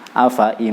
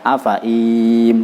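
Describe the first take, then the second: First: Both the fa and i vowels are short. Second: Only one of the two vowels is drawn out. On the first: The speaker calls it right. "Cukup pendek semua, fa-nya pendek, i-nya juga pendek" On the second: The speaker calls it wrong. "atau dibaca afaim salah satu kali"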